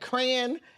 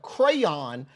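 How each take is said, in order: First: The word sounds close to crown. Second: The word is said as cray-on. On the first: The speaker calls it wrong. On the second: The speaker calls it right.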